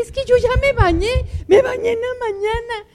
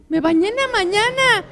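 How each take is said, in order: First: Whining husband, louder. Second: Whiny husband. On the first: Husband protests again, cry heard. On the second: Husband protests the demand to bathe. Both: Retold or imitated.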